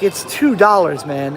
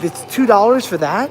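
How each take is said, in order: First: TWO punched, then falling away; matter-of-fact insistence. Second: Raised pitch, rising on THAT; retold incredulous question. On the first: Retold or imitated. Traveler tells friend the soda's price, matter-of-fact insistence. Retold exchange, his own answer. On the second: Friend questions the cheap Big Gulp price, incredulous. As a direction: imitate a disbelieving question, lifting at the end.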